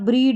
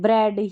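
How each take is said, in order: First: The vowel is a long ee sound. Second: The vowel is a short e sound. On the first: The speaker calls it wrong. "ब्रीड नहीं" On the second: The speaker calls it right.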